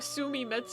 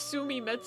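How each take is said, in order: First: The name is said as 'Su-mi-me-tsu'. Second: The name is said as 'Su-mi-me-tsu'.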